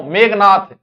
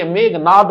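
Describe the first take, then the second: First: मेघनाथ said with an aspirated थ at the end; मेघनाथ, loud, with a final aspirated थ; wrong pronunciation. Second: मेघनाद ending in an unaspirated द; मेघनाद with a plain final द, no breath; correct pronunciation. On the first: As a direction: end मेघनाथ on a breathy th, the common mistake. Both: Shown as a demonstration. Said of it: "जबकि वह की मेघनाद हुए".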